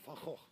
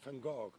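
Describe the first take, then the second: First: The name is said with a Dutch pronunciation. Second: The name is said with an English pronunciation. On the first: "but we say Van Gogh" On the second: "in English you say Van Gogh"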